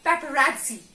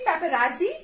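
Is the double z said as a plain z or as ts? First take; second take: ts; z. First: The double z is said as ts. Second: The double z is said as a plain z. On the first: The speaker calls it right. "there is additional sound of T here after R" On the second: The speaker calls it wrong. "it will not be paparazzi"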